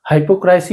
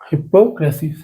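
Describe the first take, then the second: First: The first syllable sounds like 'high'. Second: The first syllable sounds like 'hip'. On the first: The speaker calls it right. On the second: The speaker calls it wrong.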